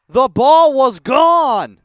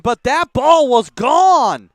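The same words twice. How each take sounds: First: Slow, stress on ball; emphatic. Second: Slow, loud, stress on gone; emphatic. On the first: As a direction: punch the word ball. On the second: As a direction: hammer home gone. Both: Real, not acted. Repeated insistence.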